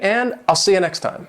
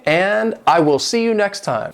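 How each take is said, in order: First: I will is contracted into one syllable. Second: I will is said as two full words. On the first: The speaker calls it right. "it's so much better to say" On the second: The speaker calls it wrong. "it just doesn't sound natural"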